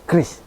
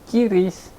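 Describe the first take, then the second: First: It starts with a plain 'kr' cluster. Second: It starts with 'ki' before the 'r'. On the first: It follows Indonesian pronunciation. The speaker calls it right. "Jadi cukup kita melafalkannya dengan Kris" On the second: It sounds somewhat artificial. The speaker calls it wrong. "ada yang sedikit artifisial, Kiris gitu"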